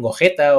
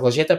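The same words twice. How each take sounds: First: The name is pronounced the Spanish way. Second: The name is pronounced the Catalan way. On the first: "fuera la G no se pronuncia así, le dicen Gogeta" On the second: "aquí en Cataluña les llamamos Gogeta"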